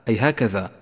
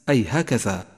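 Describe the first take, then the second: Both takes have the same delivery.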